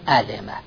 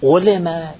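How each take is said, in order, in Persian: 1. این فعل معلوم خونده میشه. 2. این فعل مجهول خونده میشه. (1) "معلوم بخونیم" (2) "مجهول بخونیم"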